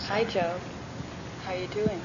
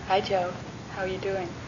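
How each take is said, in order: First: It is said at a slower pace. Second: It is said at a faster pace.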